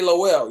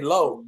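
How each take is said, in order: First: The name is said with two syllables. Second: The name is said with one syllable. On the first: It marks the speaker as an outsider. The speaker calls it wrong. "don't say Lowell" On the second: It is how the locals say it. The speaker calls it right. "You better say low"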